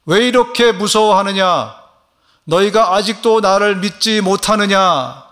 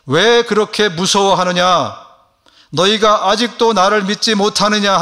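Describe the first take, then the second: First: Higher, louder and slower repeat; Jesus rebuking demo. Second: Higher, louder, slow rebuke; Jesus rebuking. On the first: Shown as a demonstration. Pastor models Jesus' question for the congregation, slow and loud. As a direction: model the line slowly for all to repeat. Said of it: "한번 따라해 보실까요". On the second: Acted. Jesus rebuking frightened disciples in the storm, slow and loud. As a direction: let Jesus ask it sternly and slowly. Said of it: "예수님은 제자들에게".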